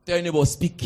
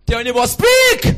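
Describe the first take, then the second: First: Said in the usual way. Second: Shouted command. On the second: Acted. Preacher shouting at congregation to speak. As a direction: belt it out to the whole room. Preacher repeats, far louder.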